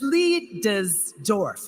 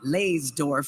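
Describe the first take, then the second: First: The first syllable sounds like 'lie'. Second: The first syllable sounds like 'lays'. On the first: The speaker calls it right. "but it's Liedesdorf" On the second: The speaker calls it wrong. "we often pronounce it wrong. I know I've been calling it Laysdorf for years"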